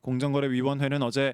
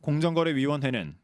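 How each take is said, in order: First: The words run together without a pause. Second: There is a pause after the first word. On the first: "이렇게 붙여도 되고" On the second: "이렇게 끊어도 되고"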